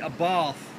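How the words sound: It is said in a southern English accent.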